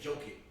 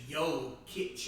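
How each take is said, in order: First: It begins with a J sound and ends in K. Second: It begins with a Y sound and ends in CH. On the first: The speaker calls it wrong. "if I want to say that, I say Joe Kick" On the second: The speaker calls it right. "but it's Yo Kitch"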